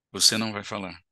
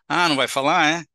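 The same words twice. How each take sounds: First: Said in the usual way. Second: Mocking, sarcastic taunt, a touch louder; scornful mock question; ironic. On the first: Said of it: "É diferente". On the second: Shown as a demonstration. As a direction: needle him with irony. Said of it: "Isso é ironia".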